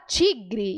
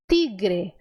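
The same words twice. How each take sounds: First: The t is affricated, close to a ch sound. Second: The t is soft and plain, without friction. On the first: This is how Brazilians say it. "o brasileiro fala tigre" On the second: This is how Spanish speakers say it. "no espanhol a letra T ela é sempre suave"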